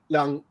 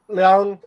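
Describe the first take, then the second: First: The word has a light, toneless pitch. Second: The word has a high, level pitch. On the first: "Liang is fifth tone, which is the empty tone" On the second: "Liang is first tone"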